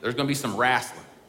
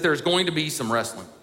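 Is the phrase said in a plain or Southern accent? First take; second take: Southern; plain. First: It is said in a Southern American accent. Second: It is said in a plain, neutral accent.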